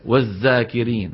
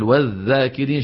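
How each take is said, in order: First: "والذاكرين" with ذ turned into z; dhal as zay. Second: "والذاكرين" with ذ as voiced th; tongue tip between teeth on "والذاكرين"; proper dhal. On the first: Teacher imitating the mistake, "والذاكرين" as wazzakirin. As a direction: say "والذاكرين" with a buzzing z. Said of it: "إبدال الذال زايا". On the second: Teacher giving the correct form, "والذاكرين" with interdental ذ. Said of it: "بدل". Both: Shown as a demonstration.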